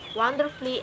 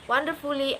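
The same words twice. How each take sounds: First: No vowel is sounded before the 'lly'. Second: A full vowel is sounded before the 'lly'. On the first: The speaker calls it right. "Cut the U off and you can pronounce it like" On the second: The speaker calls it wrong. "I'm not pronouncing that like"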